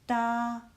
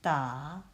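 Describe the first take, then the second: First: The pitch stays high and level. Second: The pitch dips low and then rises.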